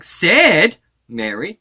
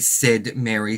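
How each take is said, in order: First: The word 'said' is said with strong emphasis. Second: The word 'said' is said lightly, without emphasis. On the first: The speaker calls it wrong. "It's more like" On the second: The speaker calls it right. "being subtle with that word"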